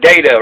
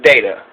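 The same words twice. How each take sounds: First: "data" said DAY-tuh with a long a; working-class data. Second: "data" said DAH-tuh with a broad a; pretentious data. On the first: Host picks the working-class version of the word, "data" as DAY-tuh. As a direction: say "data" as day-ta, plain and everyday. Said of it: "Which one's working class?". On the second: Host mocks the pretentious version of the word, "data" as DAH-tuh. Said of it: "that's the pretentious one". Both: Shown as a demonstration.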